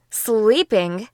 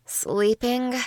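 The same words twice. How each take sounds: First: Rising disbelieving question; incredulous. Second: Groggy. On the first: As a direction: ask it like you can't believe it. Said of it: "she asked in an incredulous tone". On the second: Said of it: "I said in a groggy voice". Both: A narrator's reading.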